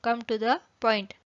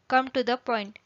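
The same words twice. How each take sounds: The two takes are said the same way.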